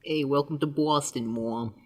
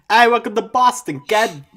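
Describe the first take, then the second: First: Softer mock Boston accent; understated fake Boston accent. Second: High, loud hammed-up Boston accent; over-the-top fake Boston greeting, pitched way up. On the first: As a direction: try out a Boston greeting, dropping off at the end. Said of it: "the hardest possible Boston accent". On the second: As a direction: greet them in the hardest Boston accent possible. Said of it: "hit them with the hardest possible Boston accent".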